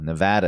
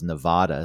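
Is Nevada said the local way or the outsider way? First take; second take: local; outsider. First: It is said the way local residents say it. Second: It is said the way outsiders usually say it. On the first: The speaker calls it right. "Nevada is the proper pronunciation. The people in the state know that" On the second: The speaker calls it wrong. "but everyone else says Nevada"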